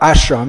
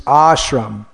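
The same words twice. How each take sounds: First: The first vowel is short. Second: The first vowel is long. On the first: The word means no work. The speaker calls it wrong. "it's not ashram" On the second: The word means intensive work. The speaker calls it right. "it's ashram"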